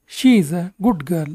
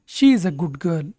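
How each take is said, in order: First: Slow. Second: Said in the usual way. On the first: Shown as a demonstration. Teacher models sentence for learners.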